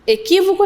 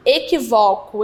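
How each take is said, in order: First: "Equívoco" with the stress on QUÍ. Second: "Equivoco" with the stress on VO, open o. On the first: Teacher rejecting a misreading, "Equívoco" stressed on QUÍ. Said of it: "Equívoco não". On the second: Teacher correcting a misread word, "Equivoco" stressed on VO. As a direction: say "Equivoco" as e-qui-VÓ-co. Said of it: "É o vó". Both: Shown as a demonstration.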